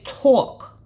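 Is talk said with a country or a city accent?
city. It is said with a city accent.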